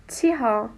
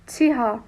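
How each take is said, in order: The two takes are said the same way.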